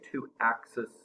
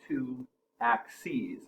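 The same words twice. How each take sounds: First: The word ends with a short 'siz' sound. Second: The word ends with a long 'seez' sound. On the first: The speaker calls it wrong. "we don't say two axes" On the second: The speaker calls it right. "we have two axes"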